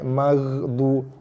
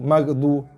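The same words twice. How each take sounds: First: The gh sound is soft with slight echo. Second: The gh sound is hard and clipped. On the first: The speaker calls it right. "dia kena bereko sikit" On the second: The speaker calls it wrong. "jangan dikeraskan"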